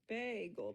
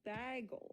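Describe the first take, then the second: First: The first syllable sounds like 'bay'. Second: The first syllable sounds like 'bag'. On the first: The speaker calls it right. "It's bagel because it's bay" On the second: The speaker calls it wrong. "It's not bagel. It's not a bag"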